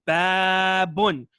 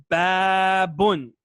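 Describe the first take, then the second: Both takes have the same delivery.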